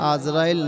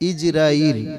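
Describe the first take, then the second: First: The name begins with an 'a' vowel. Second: The name begins with an 'i' vowel. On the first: The speaker calls it wrong. "আজরাইল নয়" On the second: The speaker calls it right. "সঠিক উচ্চারণ হলো ইজরাইল"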